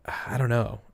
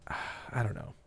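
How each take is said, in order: First: Said in the usual way. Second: "I don't know" breathed out on a sigh, much softer; sighed whisper. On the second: Real, not acted. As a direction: give up on it with a tired sigh. Baffled by the case.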